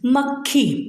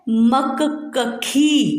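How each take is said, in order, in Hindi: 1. k आधी ध्वनि के रूप में जुड़ा हुआ बोला जाता है। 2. k एक पूरे अलग अक्षर के रूप में बोला जाता है। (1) "क आधा होता है और ख पूरा" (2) "ये तो बिल्कुल ही अशुद्ध रूप है ना"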